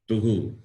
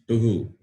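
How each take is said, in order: Both takes have the same delivery.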